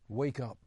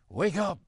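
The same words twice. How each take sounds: First: It is said softly, at low volume. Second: It is shouted, at high volume. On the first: The speaker calls it wrong. "I said that too softly" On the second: The speaker calls it right. "I should shout it"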